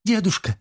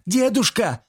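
First: High, anguished call; desperate cry. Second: Desperate scream. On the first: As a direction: cry out to grandpa. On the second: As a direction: scream for grandpa in panic. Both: Acted. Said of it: "раздался крик Эбби".

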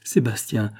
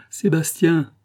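First: Said in the usual way. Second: Put-on higher, louder call to a child. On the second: A narrator's reading. Mother calling her missing son, higher and louder. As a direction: call out the name Sébastien into the room. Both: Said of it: "en s'écriant".

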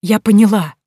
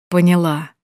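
First: Louder, relieved "поняла"; loud, falling "Я поняла" near tears; relieved emphatic. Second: Said in the usual way. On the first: Acted. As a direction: stress "поняла" with joyful relief. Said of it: "что захотелось плакать".

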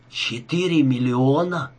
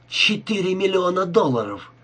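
First: Slow, stunned question; forced out. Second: Higher-pitched amazement at a fortune; amazed exclamation. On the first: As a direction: squeeze the words out slowly, as a question. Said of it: "выдавил из себя Рика". (выдавливая из себя, медленно) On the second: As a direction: exclaim it high, marvelling at the sum. Rika reacts to the huge sum. (изумлённое восклицание, повыше) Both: A narrator's reading.

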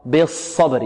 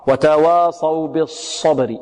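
First: بالصبر with a thick sad and no lip rounding; unrounded heavy sad. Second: بالصبر with the lips rounded on the sad; slow demo of the mistake. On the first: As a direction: keep the lips flat on the sad in بالصبر. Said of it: "الصاد هنا مفخمة". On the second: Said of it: "خطأ". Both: Shown as a demonstration.

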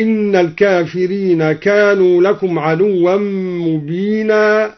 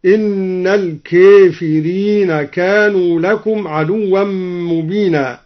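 First: Said in the usual way. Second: الكافرين with its long ā leaned fully toward ē, kēfirīn; الكافرين read with full imala as kēfirīna; imala on kāfirīn. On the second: Shown as a demonstration. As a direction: bend the ā of الكافرين into an e sound. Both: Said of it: "أمل الكافرين".

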